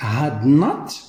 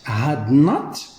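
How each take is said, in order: First: It is said as two full words. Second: The same.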